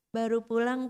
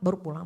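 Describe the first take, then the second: First: It sounds sweet and flirtatious. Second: It sounds curt and annoyed. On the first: The wife flirts with a neighbor's husband. "Kan gajek banget Bu" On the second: The wife scolds her own husband for coming home late. "Jam berapa sekarang baru pulang"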